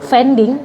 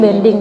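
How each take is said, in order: First: The word begins with a V sound. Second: The word begins with a B sound. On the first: This is how it is said in Indonesian or English. "kalau di bahasa Indonesia atau bahasa Inggris" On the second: This is how it is said in Spain. "di sini bilangnya bending"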